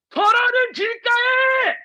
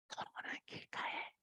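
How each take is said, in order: First: It is said in a loud voice. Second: It is said in a quiet voice.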